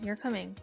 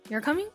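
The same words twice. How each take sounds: First: The voice falls at the end. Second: The voice rises at the end.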